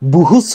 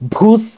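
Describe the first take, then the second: First: The b and h are split by a vowel. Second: The b and h blend into one sound. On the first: The speaker calls it wrong. "বুহুস হবে না" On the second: The speaker calls it right. "ভুস, এরকম উচ্চারণ হবে"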